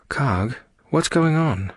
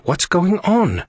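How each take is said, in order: First: Higher, slow concerned question; slow, lifted character voice. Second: Very high, drawn-out demand; slow, urgent, pitched-up question. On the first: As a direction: check on someone in pain. Leaning over moaning crewmate. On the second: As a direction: insist on an answer. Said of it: "Aria demanded". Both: A narrator's reading.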